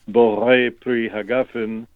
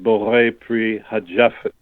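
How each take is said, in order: First: The last word has a hard g sound. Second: The last word has a j sound.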